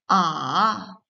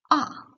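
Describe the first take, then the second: First: The pitch dips down, then rises again. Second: The pitch falls sharply from high to low. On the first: "Votre voix d'abord descend puis remonte" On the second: "un ton bref et fort qui tombe du haut vers le bas"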